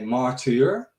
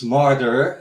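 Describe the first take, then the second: First: It is said with a German pronunciation. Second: It is said with an English pronunciation. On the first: "in Germany, they always say martyr" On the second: "it's martyr in uh, uh, in uh, English"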